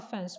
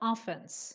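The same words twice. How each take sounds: First: The stress is on the second syllable. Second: The stress is on the first syllable. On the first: It excuses a remark that might seem insulting. "the stress is on f" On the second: It names an attacking position in football. "when you put the stress on the first syllable"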